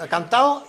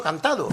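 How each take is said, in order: First: "cantao" with the d dropped, ending in a quick -ao; everyday "cantao", last vowels run together. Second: "cantado" with the d fully sounded; spelling-true "cantado", every sound kept; full d. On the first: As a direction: say "cantao" casually, no d. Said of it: "Hay gente que dice". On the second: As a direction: say "cantado" as it is written, ending -ado. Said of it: "cree que ha dicho". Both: Shown as a demonstration.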